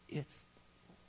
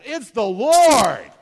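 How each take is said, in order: First: It is whispered softly. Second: It is said very loudly.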